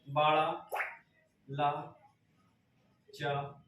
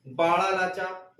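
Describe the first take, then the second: First: Soft, broken up piece by piece; dictation. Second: Said in the usual way. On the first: Shown as a demonstration. Teacher spelling out a Himachal pass for note-takers, slow dictation. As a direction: dictate slowly with gaps for writing. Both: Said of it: "लिख लीजिएगा".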